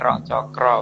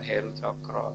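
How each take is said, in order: First: The first word starts with a vowel, no h. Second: The first word starts with an h sound. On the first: The speaker calls it right. "Ero Cokro, Wahyu Ero Cokro" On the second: The speaker calls it wrong. "bukan Heru Cokro"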